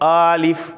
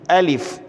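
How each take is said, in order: First: A vowel in the word is drawn out long. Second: All vowels in the word are kept short. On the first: The speaker calls it wrong. "कोई इसको आलिफ़ पढ़ता है" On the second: The speaker calls it right. "इसको खींचना नहीं है"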